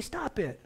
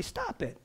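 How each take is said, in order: First: A plain, firm stop it, a little soft; just tell them to stop; someone's stop it. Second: High and soft, gently; a loving father, not scolding; father's gentle stop it. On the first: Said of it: "For someone to say". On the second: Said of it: "For the father to say". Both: Retold or imitated.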